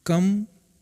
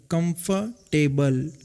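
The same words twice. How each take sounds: First: Said in the usual way. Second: कंफर्टेबल split slowly into कम-फर-टेबल; कंफर्टेबल drawn out slowly, each syllable apart. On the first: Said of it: "कंफर्टेबल है तो एक word". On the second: Shown as a demonstration. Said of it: "तीन syllable से मिलकर".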